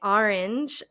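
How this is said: The first vowel sounds like 'ar'. It marks the speaker's regional accent. The speaker calls it wrong. "I couldn't say orange"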